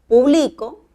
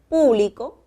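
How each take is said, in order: First: The stress is on the second syllable. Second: The stress is on the first syllable. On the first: "publico sin tilde" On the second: "puedo pronunciar público y coloco tilde"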